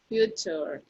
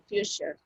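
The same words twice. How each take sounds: First: The t is a plain t sound. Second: The t is an sh-like sound. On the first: The speaker calls it wrong. "some of you say future" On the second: The speaker calls it right. "that's the pronunciation"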